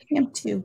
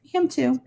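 First: Said in the usual way. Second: Whispered. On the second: Shown as a demonstration.

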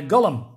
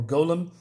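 First: "golem" said GOLL-um; short first vowel in "golem", like "doll"; first pronunciation variant. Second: "golem" said GOH-lem; long O at the start of "golem"; alternative pronunciation. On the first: Offers two pronunciations of golem. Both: Shown as a demonstration.

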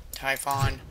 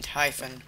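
First: Typhon with a full open "fawn" ending; alternative pronunciation of Typhon. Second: Typhon with an unstressed, reduced last vowel; first pronunciation of Typhon. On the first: Player offering another name version, Typhon ending in "fon". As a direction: say Typhon as TIE-fon, last vowel clear. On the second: Player trying a name for the guardian, Typhon ending in "fən". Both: Shown as a demonstration. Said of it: "whatever the hell you wanna call them".

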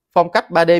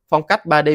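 Both takes have the same delivery.

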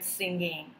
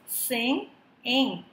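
First: Said in the usual way. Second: "sing-ing" broken into two beats; syllable by syllable. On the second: Shown as a demonstration. Teacher dividing the word for students, "sing-ing" in two chunks. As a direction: pause between "sing" and "ing". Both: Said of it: "dividing the word into two syllables".

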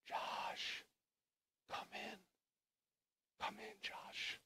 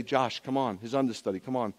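First: Slow, breath-only whisper; whispered call. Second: Said in the usual way. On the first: Acted. God invites waiting Joshua inside, hushed whisper. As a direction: whisper an invitation with long pauses.

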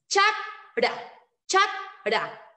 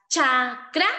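First: CHAKRA broken as CHAK ... RA, K closing the first syllable; CHAK, pause, RA; correct syllable split. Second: CHAKRA broken as CHA ... KRA, with KR starting the second syllable; CHA, pause, KRA; wrong syllable split. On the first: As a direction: stop firmly on CHAK, pause, then RA. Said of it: "haremos la siguiente forma". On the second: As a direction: split CHAKRA after the first A, pausing before KRA. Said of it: "No tenemos esta presencia de sílaba". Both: Shown as a demonstration.

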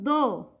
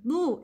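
First: "do" with an open "oh" vowel; incomplete dhamma. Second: "do" said as a pure "doo"; full dhamma. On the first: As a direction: let "do" slip to doh. ("do" said like doh, short of oo) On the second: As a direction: round "do" fully into an oo sound. ("do" with a complete u vowel) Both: Shown as a demonstration. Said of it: "not do".

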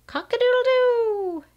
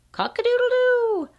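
First: High crowing rooster call. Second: High crowing rooster call, falling at the end. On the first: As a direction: crow it out like a proud rooster. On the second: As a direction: crow like a rooster waking the barn. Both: Pretend. Reading barn book to child.

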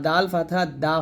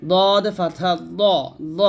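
First: Said in the usual way. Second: Slow দদ with a thick emphatic d; heavy dad. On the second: Shown as a demonstration. Teacher contrasting dad and dal, দ said heavy. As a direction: round and darken the vowel in দ. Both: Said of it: "এই হরফগুলো অবশ্যই মোটা করতে হবে".

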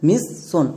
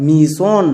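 First: "মিস সন" split into two words; double-s reading. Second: "মিশন" as mi-son, one s; correct single s. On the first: Teacher reads it letter by letter, split "মিস সন". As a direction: say "মিস সন" with an s closing the first syllable. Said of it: "মিস সন উচ্চারণ করি না". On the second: Teacher models it after spelling, single-s "মিশন". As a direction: open "mi", then "son" in "মিশন". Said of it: "এবার উচ্চারণ করো". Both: Shown as a demonstration.

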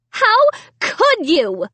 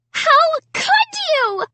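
First: High, slow outraged cry; screaming. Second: High, slow scream. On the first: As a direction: scream it again. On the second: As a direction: scream the accusation. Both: A narrator's reading. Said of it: "Sarah screamed".

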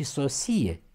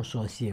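First: Sosie stressed on i. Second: Sosie stressed on o; wrong stress on sosie. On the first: Teacher models the right accent, sosie stressed on i. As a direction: say 'so-SI-e' for sosie. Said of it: "cu accent pe I". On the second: Teacher shows what is often heard, sosie stressed first. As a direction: say 'SO-sie' for sosie. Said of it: "cum mai auzim". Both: Shown as a demonstration.

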